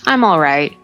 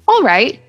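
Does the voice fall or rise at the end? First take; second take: fall; rise. First: The voice goes down at the end. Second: The voice goes up at the end. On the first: The speaker is tired. "But if maybe I'm tired, I might say" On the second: Things are going well. "Positive would be all right. See, the voice goes up"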